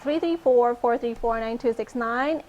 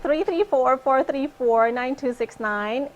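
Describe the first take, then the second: First: The number is said fast. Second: The number is said slowly.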